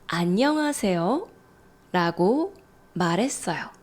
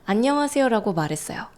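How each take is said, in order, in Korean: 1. 천천히 말하면서 억양을 과장했어요. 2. 빠르고 자연스러운 속도로 말했어요.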